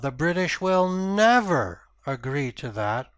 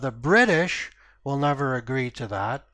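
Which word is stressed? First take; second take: never; British. First: The stress falls on the word never. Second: The stress falls on the word British. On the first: There is no chance of agreement at all. "so that's a very definitive no" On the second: Another group might agree instead. "I want to underline these two ideas, that uh, the British and Germans have a different point of view"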